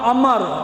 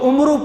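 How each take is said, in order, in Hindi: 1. नाम 'a' से शुरू होता है और आख़िर में कोई स्वर नहीं है। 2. नाम 'u' से शुरू होता है और 'oo' पर ख़त्म होता है।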